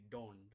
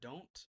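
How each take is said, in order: First: The final t sounds like a soft d. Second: The final t is a plain t sound. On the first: "it would be don't" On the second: "Instead of don't"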